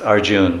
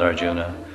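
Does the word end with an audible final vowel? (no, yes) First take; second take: no; yes. First: The word ends without a final vowel sound. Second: The word ends with a final 'a' vowel. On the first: This is how it is said in India. "They don't like A's. A's are not preferred over here. It's Arjun" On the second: This is how it is said outside India. "not Arjuna"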